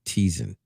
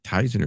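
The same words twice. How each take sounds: First: "Tizen" with an EE sound, as in tea; first syllable like "tee". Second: "Tizen" with a long I, as in tie; first syllable like "tie". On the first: Co-host unsure of the platform's name, "Tizen" pronounced TEE-zen. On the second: Co-host unsure of the platform's name, "Tizen" pronounced TIE-zen. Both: Shown as a demonstration. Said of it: "is it Tizen or Tizen".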